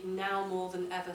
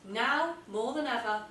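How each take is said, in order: First: Said in the usual way. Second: "Now" punched up, then a pause; emphatic opener. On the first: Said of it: "by using that contrast sentence". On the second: Shown as a demonstration. Teacher modelling a punchy "Now, more than ever". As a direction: hit "Now" hard and let it ring. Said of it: "now more than ever" sentence".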